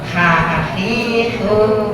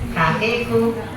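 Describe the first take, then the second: First: The vowel is held for two beats. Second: The vowel is short and said quickly. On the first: "Kalau pakai mat" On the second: "Kalau tidak pakai mat kan hakiku, jadi kan cepat"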